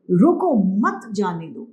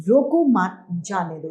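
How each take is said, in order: First: Slow रोको, break, then मत जाने दो together; pause after रोको. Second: Slow रोको मत, break, then जाने दो; pause after मत. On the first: Teacher shows going is forbidden, pausing after रोको. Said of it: "यानी यहाँ पर जाने की आज्ञा नहीं है". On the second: Teacher shows going is allowed, pausing after मत. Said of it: "इसका मतलब है कि इसे जाने की". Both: Shown as a demonstration.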